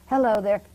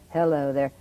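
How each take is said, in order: First: It is said at a normal speaking pitch. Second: It is said two steps lower in pitch.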